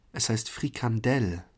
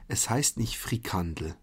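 First: Frikandel stressed at the end, frikanDEL, clear open e; stress on last syllable. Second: Frikandel with the stress on the first syllable, FRIkandel; wrong stress. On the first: Correcting German listeners, Frikandel stressed at the end. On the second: Correcting German listeners, first the wrong stress on Frikandel. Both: Shown as a demonstration. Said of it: "Die Betonung liegt auf der letzten Silbe".

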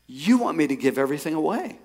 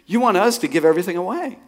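First: Questioning stress on YOU, rising at the end; incredulous question. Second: Higher, insistent stress on US, rising at the end; emphatic incredulous question. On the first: Man questioning God on the treadmill, incredulous. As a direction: ask it in disbelief, lifting the end of "away". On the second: Man asking God again for himself and wife, emphatically incredulous. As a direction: hit "us" and swing "away" upward in disbelief. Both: Retold or imitated.

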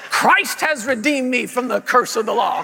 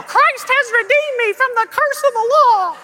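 First: Firm, declarative preacher delivery; imitated parent confessing scripture; parent leading confession. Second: Very high, loud squeak; hammed-up child echoing on one high note; puppet child voice. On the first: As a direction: state it for the child to repeat. Parent's take before child repeats. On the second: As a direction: parrot it shrilly like a tiny puppet. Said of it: "a little puppet voice when I was a child".

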